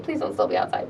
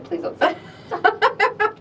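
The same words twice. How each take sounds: First: Whispered hope; hushed plea under the breath. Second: Repeated through a laugh; laughing repeat of the plea. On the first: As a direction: breathe it as a quiet, anxious plea. Hoping the crowd has left. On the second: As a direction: say it laughing at yourself. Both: Retold or imitated.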